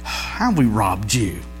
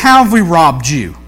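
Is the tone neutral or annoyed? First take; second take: annoyed; neutral. First: It is said with a sigh, annoyed. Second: It is said in a plain, neutral tone.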